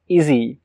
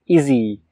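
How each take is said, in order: The two takes are said the same way.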